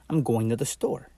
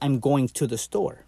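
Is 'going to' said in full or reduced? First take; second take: reduced; full. First: 'Going to' is reduced and run together. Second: 'Going to' is said fully, syllable by syllable. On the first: The speaker sounds like a native speaker. "But you can also say" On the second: The speaker sounds like a language learner. "If you want to sound like someone who's learning the language"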